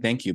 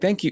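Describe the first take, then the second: First: It is said casually and offhandedly. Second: It is said warmly and sincerely.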